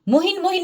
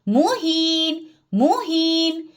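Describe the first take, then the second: First: The vowel in the last syllable is short. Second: The vowel in the last syllable is long. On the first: The speaker calls it wrong. "मुहिन मुहिन नहीं करेंगे" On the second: The speaker calls it right. "तो इसको आप पढ़े मुहीन मुहीन"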